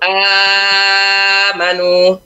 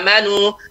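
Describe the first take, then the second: First: The long vowel is held for six beats. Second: The long vowel is held for two beats.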